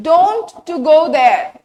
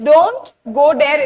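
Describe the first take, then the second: First: "don't" drawn out and loud; slow, loud stretch on "don't"; stressed wrong example. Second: Said in the usual way. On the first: Shown as a demonstration. Teacher showing a grammar mistake, stressed "don't". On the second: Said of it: "correct sentence".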